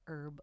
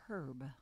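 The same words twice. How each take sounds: First: The name starts with a silent H. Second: The name starts with a spoken H. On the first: The speaker calls it wrong. "Sometimes people call it Herb, like, you know, herbs and spices, but it's not" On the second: The speaker calls it right. "people forget to pronounce the H"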